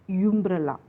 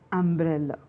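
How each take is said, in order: First: The word begins with a y sound. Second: The word begins with a vowel sound. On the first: The speaker calls it wrong. "it should not be pronounced as umbrella" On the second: The speaker calls it right. "We have to pronounce it as umbrella. The first sound is a"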